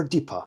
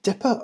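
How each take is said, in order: First: Deeper with a long "ee" in the first syllable; long-vowel deeper. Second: Dipper with a short "ih" in the first syllable; short-vowel dipper. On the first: Reviewer debating pronunciations, deeper with long "ee". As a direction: say deeper to rhyme with "keeper". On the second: Reviewer debating pronunciations, dipper with short "ih". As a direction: say dipper to rhyme with "ripper". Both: Shown as a demonstration. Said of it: "if you're debating pronunciations".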